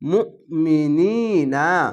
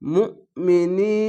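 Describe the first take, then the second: First: The word ends with a final vowel sound. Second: The word ends on a consonant, vowel dropped. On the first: The reading continues without stopping. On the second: The reader stops at the end of the verse.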